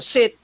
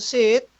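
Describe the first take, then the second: First: It sounds like a firm command. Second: It sounds like a timid request.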